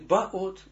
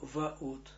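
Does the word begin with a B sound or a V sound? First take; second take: B sound; V sound. First: The word begins with a B sound. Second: The word begins with a V sound. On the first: The speaker calls it wrong. "Не баот" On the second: The speaker calls it right. "но ваот"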